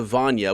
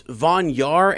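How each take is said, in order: First: Vanya said falling, no r at the end, VAN-ya; Vanya, singular. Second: Vanyar said slowly with a rising end, VAN-yar; Vanyar, plural. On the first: Reader compares the Elf names Vanyar and Vanya: short, falling Vanya. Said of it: "just singular". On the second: Reader compares the Elf names Vanyar and Vanya: slow, rising Vanyar. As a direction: stretch out the final "yar" in Vanyar. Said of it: "then they have here Vanya". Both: Shown as a demonstration.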